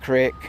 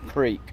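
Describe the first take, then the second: First: The vowel is short, like in 'crick'. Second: The vowel is long, like in 'creek'. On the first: Some other people say it this way. The speaker calls it wrong. "Some people call it crick" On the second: This is how it should be said. The speaker calls it right. "It's creek"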